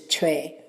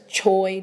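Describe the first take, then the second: First: The name is said the native Korean way. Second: The name is said the usual American way. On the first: The speaker calls it right. "but it's Choi, the correct pronunciation" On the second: The speaker calls it wrong. "that's Choi to us Americans"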